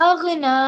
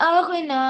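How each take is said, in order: Both takes have the same delivery.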